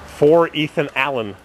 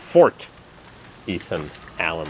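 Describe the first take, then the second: First: The first word sounds like 'for' without t. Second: The first word is enunciated with a clear t. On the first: It sounds like the place is called 'for'. The speaker calls it wrong. "The announcer said" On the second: The place name is unmistakable. The speaker calls it right. "extra super duper enunciate"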